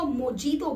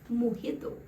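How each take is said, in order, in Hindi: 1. बीच का व्यंजन 'j' की आवाज़ है। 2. बीच का व्यंजन 'h' की आवाज़ है। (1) "लोग इसको मोजीतो बोलते हैं उसकी स्पेलिंग के चलते" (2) "उसका राइट प्रोनाउंसिएशन है मोहितो"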